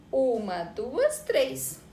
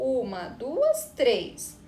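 First: Said in the usual way. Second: Counting "Uma, duas, três" slowly, one beat each; teacher counting slowly for the kids; slow syllable count. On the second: Shown as a demonstration. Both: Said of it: "Vamos contar".

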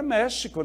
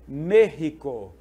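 First: Said in the usual way. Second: Slow, loud "México" with an h-like x; Spanish pronunciation. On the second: Shown as a demonstration. Teacher giving the word in Spanish, "México" with an h-like x. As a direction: say "México" as "MEH-hee-ko", drawn out. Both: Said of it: "no espanhol".

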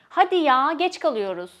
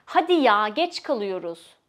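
First: Louder Hadi ya, impatient complaint; annoyed. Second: Annoyed. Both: Shown as a demonstration. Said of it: "especially when you're annoyed".

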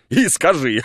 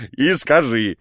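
First: 1 voiced line. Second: The same words again, now through a laugh; laughing repeat. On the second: Acted. The guest laughing as he repeats his order.

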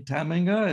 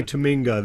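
First: "Tamminga" with the stress on the first syllable, TAM-minga; Dutch stress on first syllable. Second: "Taminga" with the stress on the middle syllable, ta-MING-a; common anglicized stress. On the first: Real, not acted. Host checks guest's name, first-syllable stress "Tamminga". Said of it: "You're, you're saying it right". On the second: Shown as a demonstration. Guest shows how friends say his name, "Taminga" stressed on MING. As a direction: say "Taminga" the way most people do, leaning on MING. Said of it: "we say Taminga".

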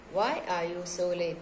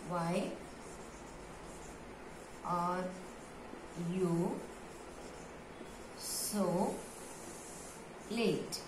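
First: Said in the usual way. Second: Softly, each word on its own with long pauses; word-by-word dictation. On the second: Shown as a demonstration. Teacher dictating to pupils, soft word-by-word pace. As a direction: dictate slowly, leaving time to write.

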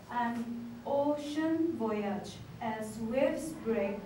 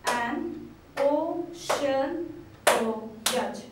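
First: Slow, even poem recital; poem reading. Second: An ocean voyage very slow and louder, each syllable punched; syllables clapped out. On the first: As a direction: read it like a gentle haiku. Reads the example haiku. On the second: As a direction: clap out every beat of An ocean voyage. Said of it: "emphasizing on the number of syllables by clapping". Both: Shown as a demonstration.

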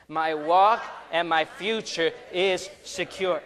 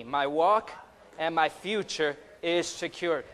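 First: Louder, slower, emphatic declaration; like you mean it. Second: Said in the usual way. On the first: Shown as a demonstration. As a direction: lead the congregation with full conviction. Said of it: "Now say it like you mean it". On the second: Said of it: "Say that with me".

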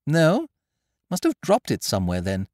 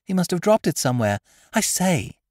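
First: Slightly higher casual toff; lightly voiced young gentleman. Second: Put-on eager little girl; fast, much higher, louder schoolgirl. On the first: Wooster dismissing the lost case, lightly voiced. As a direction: shrug it off. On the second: Girl handing over the cigarette case, fast, high and loud. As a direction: rattle off the errand. Child voice. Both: A narrator's reading.

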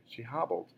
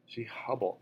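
First: Hobbled said properly with an ah vowel, "hahb-ld"; corrected hobbled. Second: Hobbled misread with an uh vowel, like "hubbled". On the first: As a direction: fix it: hobbled with a clear open ah. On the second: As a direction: slip on hobbled, saying hub-bled. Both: Real, not acted. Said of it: "sorry, she hobbled".

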